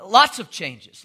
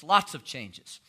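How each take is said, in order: First: Louder, punched lots of changes; emphatic. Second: Said in the usual way. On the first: Shown as a demonstration. Preacher on new laws, emphatic and louder. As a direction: hit it hard the first time.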